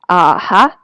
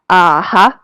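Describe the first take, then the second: The two takes are said the same way.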